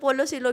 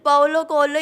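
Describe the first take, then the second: First: The surname is said like 'see-lo'. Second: The surname is said like 'ko-el-yo'. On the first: The speaker calls it wrong. "ऐसे बोलते" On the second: The speaker calls it right. "Exact"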